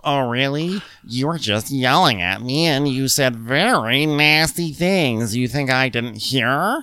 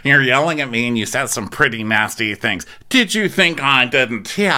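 First: Higher-pitched mock English accent; affected, haughty English accent; Meredith. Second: Mock English accent. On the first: Mimicking Meredith confronting Jen, in an English accent. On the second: Co-host copies the castmate's weird line, mock English accent. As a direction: overdo the English vowels on the closing question. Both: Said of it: "says that in an English accent".

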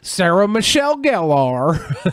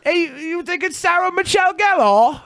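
First: Slow Southern simpleton drawl; Forrest Gump. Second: High mock-British question; British accent, lifting "Gellar" at the end; British question lilt. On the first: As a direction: stretch the name out slowly and earnestly. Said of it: "I say it like Forrest Gump". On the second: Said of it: "raise your inflection at the end". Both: Shown as a demonstration.

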